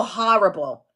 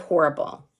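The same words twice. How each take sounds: First: "horrible" said as "HAH-rible"; New York horrible. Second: "horrible" said as "HOR-ible"; rounded "or" at the start of "horrible"; own horrible. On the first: Teacher imitating New Yorkers, "HAH-rible" pronunciation. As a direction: open "ah" at the start of "horrible". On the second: Teacher giving her own way, "HOR-ible" pronunciation. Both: Shown as a demonstration. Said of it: "instead of horrible".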